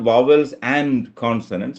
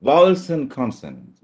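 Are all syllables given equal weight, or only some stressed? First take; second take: equal; uneven. First: Every syllable gets the same equal weight. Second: Only the first syllables of both nouns are stressed. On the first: The speaker calls it wrong. "It's not" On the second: The speaker calls it right. "ഒന്ന് വ ക ഈ ഭാഗങ്ങളിൽ മാത്രം stress വന്നു"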